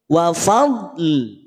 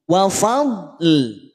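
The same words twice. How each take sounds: No difference in how they are said.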